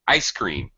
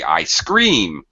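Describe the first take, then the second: First: The first word is stressed and high-pitched. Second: The second word is stressed and strong. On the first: It names the frozen dessert. "we put the stress on the first word ... high, low" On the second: Someone says they are screaming. "the main verb ... pronounced very strongly ... It would be the opposite"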